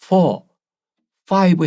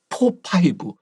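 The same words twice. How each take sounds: First: Four and five begin with an f sound. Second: Four and five begin with a p sound. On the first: The speaker calls it right. "해야 되는데" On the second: The speaker calls it wrong. "미국 사람이 들으면 굉장히 이상한 그런 발음이었어요"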